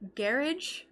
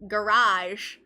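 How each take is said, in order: First: It is said with a non-American pronunciation. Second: It is said with an American pronunciation. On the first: "Sounds so much cooler" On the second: "all the things that Americans say that others don't"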